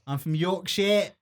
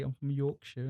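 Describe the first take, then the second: First: Put-on broader Yorkshire accent, more projected. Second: Put-on Yorkshire accent, softer. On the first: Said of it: "this is a bit". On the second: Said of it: "you have a British accent anyway".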